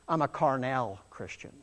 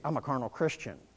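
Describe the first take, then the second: First: It is said in a posh, fancy voice. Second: It is said in a plain, ordinary voice. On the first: The speaker tries to make the fault sound better. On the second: The speaker admits the fault honestly.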